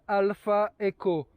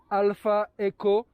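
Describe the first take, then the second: No difference in how they are said.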